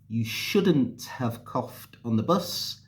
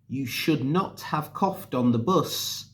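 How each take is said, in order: First: It is said with the contracted form. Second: It is said with the full form, not contracted.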